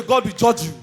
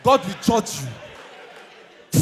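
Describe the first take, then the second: First: Mock curse. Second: Very slow laughing repeat; mocking the judge's curse, slow and laughing; drawn-out laughing curse. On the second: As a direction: stretch it out, laughing and shouting. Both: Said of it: "they say".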